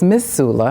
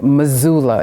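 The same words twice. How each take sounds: First: It is pronounced the northeastern outsider's way. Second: It is pronounced the local way. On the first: The speaker calls it wrong. "my uh, sort of northeast uh, attempt" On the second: The speaker calls it right. "the correct way"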